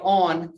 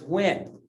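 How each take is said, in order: First: The word starts with a plain o sound. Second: The word starts with a w sound. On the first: This is the standard form. "when you say on for he" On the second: This is the regional dialect form. "it's when"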